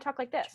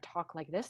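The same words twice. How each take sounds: First: The voice is high and thin, not chest-resonant. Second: The voice is deep and resonant from the chest.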